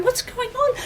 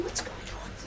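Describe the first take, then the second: First: Very high, squeaky alarm; agitated onlooker. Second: Hushed, voiceless murmur; crowd whisper. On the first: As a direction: ask it in a high-pitched panic. Worried crowd grows agitated. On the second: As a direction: whisper it like a puzzled onlooker. Worried crowd murmuring in the room. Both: Acted.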